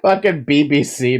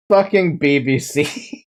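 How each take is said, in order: First: Said in the usual way. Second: Slow, dragged-out words with a rising end; slow mock-outraged repeat; drawn-out repeat. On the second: Shown as a demonstration. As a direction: stretch each word out in disbelief.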